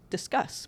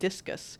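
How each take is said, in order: First: It sounds like the word discuss. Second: It sounds like the word discus. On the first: The speaker calls it right. "Apparently discus should be pronounced discuss" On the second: The speaker calls it wrong. "It really looks to me like discus"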